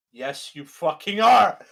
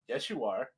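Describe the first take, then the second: First: Louder, slower, every word hit; emphatic retort. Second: Said in the usual way. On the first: Retold or imitated. Answering the killer's denial again, slow loud retort. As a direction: lose patience and hammer it home. Acted quarrel, escalated reply.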